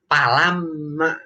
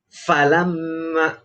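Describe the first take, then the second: First: The word begins with a p sound. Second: The word begins with an f sound. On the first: The speaker calls it wrong. "Sering yang kita dengar itu pa. ... itu udah keliru itu ya" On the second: The speaker calls it right. "ini fa bukan pa"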